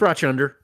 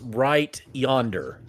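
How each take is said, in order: First: Yonder begins with a ch sound instead. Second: Yonder begins with a plain y sound. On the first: "that's not how it's said in in in rural Alabama. It's pronounced Rochunder" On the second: "instead of saying when we're pointing to something, it's over there, we go"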